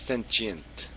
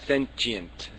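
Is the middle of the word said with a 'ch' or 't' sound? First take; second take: ch; ch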